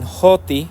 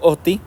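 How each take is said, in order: First: The word begins with an h sound. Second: The word begins directly with a vowel. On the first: "con como la H en inglés más o menos, este, algunos lo pronuncian así" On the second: "yo lo pronuncio oti"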